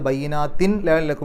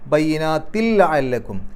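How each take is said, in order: First: A clear n is said before the l. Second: The n vanishes into a doubled l sound. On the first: The speaker calls it wrong. "അല്ലാതെ ... എന്നല്ല" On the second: The speaker calls it right. "ലാമിന് ഷദ് കൊടുത്തു നോക്കൂ"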